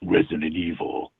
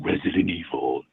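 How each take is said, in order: Both takes have the same delivery.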